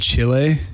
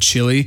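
First: It is pronounced with Spanish-style vowels. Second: It is pronounced with English-style vowels. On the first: "I said Chile" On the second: "instead of Chile"

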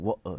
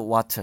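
First: The t in the middle is dropped, London-style. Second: The t in the middle is pronounced.

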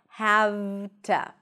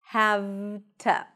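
Both takes have the same delivery.

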